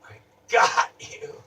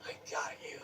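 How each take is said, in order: First: Said in the usual way. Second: "I got you" breathed out unvoiced, much softer; whispered gloat. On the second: Savoring the win over the mime, a whispered "I got you". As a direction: hiss "I got you" as a private victory.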